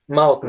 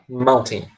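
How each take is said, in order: First: The middle T is dropped, in an American accent. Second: The middle T is clearly pronounced, in a British accent. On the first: "americano, ele tende a pronunciar mal-in. Eles não pronunciam o T" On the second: "um inglês europeu, eles falam mountain mesmo"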